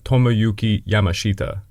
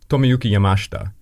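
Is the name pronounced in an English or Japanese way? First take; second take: English; Japanese. First: The name is said with English pronunciation. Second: The name is said with Japanese pronunciation. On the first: "if you're an English speaker, you would say" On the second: "That's how the Japanese pronounce it"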